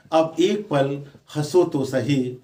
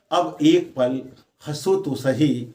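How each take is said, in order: Both takes have the same delivery.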